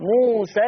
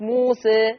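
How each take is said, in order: First: The final vowel is a short, plain 'a'. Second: The final vowel is long and tilted toward 'e'. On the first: The word runs on into the next word. "اما وصلا ما حذفت الالف فلا تقليل" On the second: The word ends the phrase at a stop. "فلما نقف بنثبت الالف موسى"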